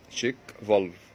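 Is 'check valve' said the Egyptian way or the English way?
English. It is said the English way, as in the original. This is the original English name. "بالانجليزي اهي. شيك فالف ترجمتها الحرفيه صمام فحص"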